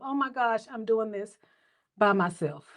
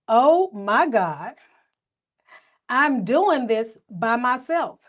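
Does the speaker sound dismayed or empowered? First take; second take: dismayed; empowered. First: The voice sounds dismayed and overwhelmed. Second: The voice sounds proud and empowered. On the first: Being alone feels frightening and sad. The speaker calls it wrong. "woe is me" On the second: Being alone is proof of strength. The speaker calls it right. "same words, different inflection"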